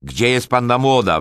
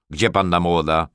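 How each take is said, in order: First: Loud, high impatient yell; wrzask. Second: Said in the usual way. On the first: A narrator's reading. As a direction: shout it when nobody answers. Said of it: "wrzasnął". (głośny, niecierpliwy wrzask) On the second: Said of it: "zapytał".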